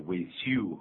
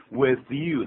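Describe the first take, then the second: First: WITH YOU with an s sound for th; mispronounced WITH YOU. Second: Said in the usual way. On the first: Retold or imitated. Host mimics Karen's learner English, WITH YOU mispronounced as "wis you". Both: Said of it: "她念成with you啊".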